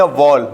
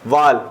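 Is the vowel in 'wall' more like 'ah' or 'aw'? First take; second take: aw; ah. First: The vowel is a rounded 'aw' sound. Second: The vowel is an open unrounded 'ah' sound. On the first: The speaker calls it right. "वॉल ना कि वाल" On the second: The speaker calls it wrong. "ना कि वाल"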